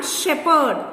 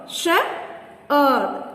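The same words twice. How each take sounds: First: Said in the usual way. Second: "Shepherd" in two beats, Shep, herd; long pause in the middle of "Shepherd"; syllable by syllable. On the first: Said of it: "Divide each word". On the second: Shown as a demonstration. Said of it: "Two syllables".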